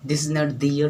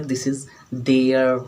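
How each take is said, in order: First: Their said as dee-yer, the wrong way. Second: Their said slowly as one syllable, dare; right their. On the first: Teacher showing students the wrong way to say their. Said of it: "हम दो तीन pronunciation आपको बता दें". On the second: Teacher showing students the right way to say their. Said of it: "ये मुंह बना के मत बोलिए देयर". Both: Shown as a demonstration.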